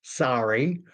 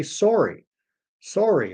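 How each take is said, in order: First: "sorry" with an open ah, like sah-ree; the American "sorry", open vowel; "sorry" as sah-ree, not the closed O. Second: "sorry" with a closed O, like sore-y; Canadian "sorry", sore-ee not sah-ree. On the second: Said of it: "it's a closed O sound". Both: Shown as a demonstration.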